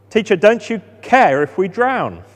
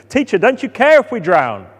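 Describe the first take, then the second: First: Panicked cry. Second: Desperate cry. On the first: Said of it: "they're panicking". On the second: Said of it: "shaking him desperately". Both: Acted.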